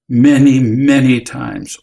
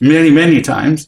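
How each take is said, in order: First: It is said in a heavy, solemn tone. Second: It is said in an exasperated, impatient tone. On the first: The matter is serious. "with an intonation of gravity" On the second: The speaker is fed up. "or impatience"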